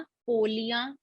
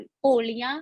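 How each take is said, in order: First: Softer, unstressed पोलियां; पोलियां without stress. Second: पोलियां stressed, pitched a little up. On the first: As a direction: say पोलियां softly, leaving out the stress. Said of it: "सिर्फ stress ना देने से". (पोलियां बिना ज़ोर के, धीमे से) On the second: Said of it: "stress ना देने से अलग मीनिंग". (पोलियां पर ज़ोर देकर) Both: Shown as a demonstration.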